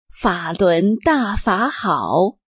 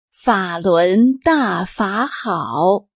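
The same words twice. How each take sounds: First: The line is recited at a normal pace. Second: The line is recited at a slower pace.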